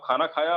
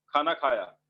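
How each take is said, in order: First: "खाना खाया" lifted slightly on खाया; asking, as a question. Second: "खाना खाया" falling at the end; telling, as a statement. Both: Shown as a demonstration. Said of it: "बता रहे हो या पूछ रहे हो".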